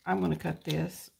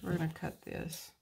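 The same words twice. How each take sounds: First: I'm said louder, correcting we to I'm; stress on I'm. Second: Said in the usual way. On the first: Shown as a demonstration. Vlogger correcting herself from we to I'm, firm stress on I'm. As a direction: lean on I'm to fix the we. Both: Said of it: "I say we".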